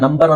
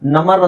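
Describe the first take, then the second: First: The b sound in the middle is pronounced. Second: The b sound in the middle is silent. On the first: The speaker calls it right. "ನಂಬರ್ ಅಂತ ಹೇಳೋ" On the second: The speaker calls it wrong. "ನಮರ್ ಅಂತ ಹೇಳಂಗಿಲ್ಲ"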